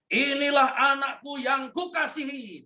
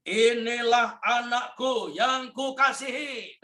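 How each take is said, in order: First: High, ringing heavenly declaration; God the Father proclaiming his beloved son; proclaiming Father's voice. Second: Slow, lifted, loving proclamation; voice of God the Father. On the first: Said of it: "identitas yang diberi Bapa begini". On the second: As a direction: announce it from heaven, slowly. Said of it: "Dia berkata begini". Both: Acted.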